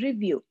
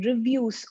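First: "review" read without the final s; final S dropped. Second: Said in the usual way. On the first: Shown as a demonstration. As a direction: leave the s off the end of "review". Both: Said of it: "missing S".

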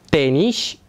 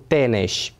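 First: Teniș with a clear I sound, TE-nish; teniș pronounced with I; said correctly. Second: Teneș with an E sound, slower; teneș pronounced with E; said wrongly. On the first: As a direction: say teniș with I, not E. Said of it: "Forma corectă este teniș cu I". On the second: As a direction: say teneș with E in the second syllable. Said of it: "nu cu E". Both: Shown as a demonstration.

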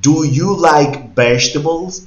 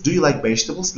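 First: Slow, louder question with a rising end; teacher modelling slowly; slow model question. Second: Said in the usual way. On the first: Shown as a demonstration. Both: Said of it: "si yo le digo a usted".

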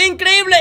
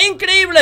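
No difference in how they are said.

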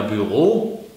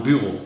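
First: Büro with the stress on the last syllable, bü-RO; German stress. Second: Büro with the stress on the first syllable, BÜ-ro; Swiss stress. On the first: A German teacher shows standard stress on Büro. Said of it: "sagen wir in Deutschland ja Büro". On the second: The teacher shows Swiss stress on Büro. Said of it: "in der Schweiz sagt man Büro". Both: Shown as a demonstration.

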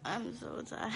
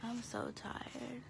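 First: Said in the usual way. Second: Drowsy, slow, soft; sleepy and worn out; tired voice. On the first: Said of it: "I literally sound dead". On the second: Real, not acted. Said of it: "This is my "I wanna sleep, I'm so tired" voice".

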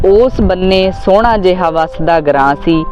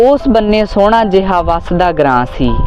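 Both takes have the same delivery.

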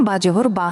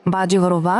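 Both takes have the same delivery.

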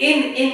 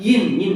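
First: ইন, ইন said as a plain "en", without the opening y; wrong vowel. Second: ইন, ইন said as "yin", with a y glide first; from the tongue. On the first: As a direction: drop the y glide from ইন. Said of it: "ইন, ইন করা যাবে না". (ভুলভাবে ইন-কে এন বলা) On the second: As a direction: start ইন with the tongue raised for y. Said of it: "জিহ্বা থেকে". (জিহ্বা থেকে ইন-কে য়িন উচ্চারণ) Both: Shown as a demonstration.

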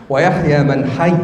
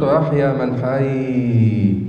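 First: Said in the usual way. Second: Slow, sung ويحيى with the doubled letter dragged out; overdrawn shadda. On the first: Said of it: "لا طبعًا". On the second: Shown as a demonstration. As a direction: stretch the shadda in ويحيى too long, as a reciting fault. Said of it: "يقرأ عن المشد".

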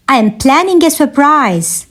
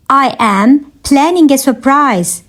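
First: Said in the usual way. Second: Measured, separated phrases; careful teaching repeat. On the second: Shown as a demonstration. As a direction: pause after "I am". Teacher repeats answer for learners.

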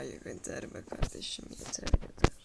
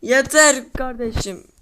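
First: A breathless whisper, fed up; whispered enough. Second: Louder and slow, drawn out; slow loud cry of enough; loud fed-up plea. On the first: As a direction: hiss it under your breath, worn out. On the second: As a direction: plead loudly for it to stop. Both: Real, not acted. Fed up with the build.

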